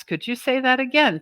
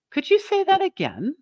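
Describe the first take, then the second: First: Said in the usual way. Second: Demo reply. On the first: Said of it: "So we're repeating these steps". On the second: Shown as a demonstration. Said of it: "Or you could say".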